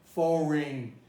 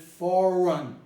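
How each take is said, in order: First: The last syllable has a full vowel. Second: The last syllable has a reduced vowel. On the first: The speaker calls it wrong. "Nobody pronounces foreign" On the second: The speaker calls it right. "Everybody pronounces it foreign. ... So rain becomes run"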